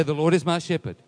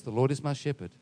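First: Louder preacher's call to repeat; emphatic declaration. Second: Said in the usual way. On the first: Shown as a demonstration. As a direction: call it out firmly to the congregation. Repeats it to rouse the congregation.

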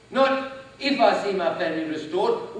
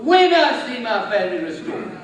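First: "Not" rising, doubtful; stress on not if. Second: "when" falling, louder and certain; stress on when. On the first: Preacher contrasting doubt with faith, "Not" rising. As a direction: lift "Not" as the doubtful word. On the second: Preacher declaring a family restored, "when" loud and sure. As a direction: hit "when" hard and sure. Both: Shown as a demonstration. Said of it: "Not if ... when".

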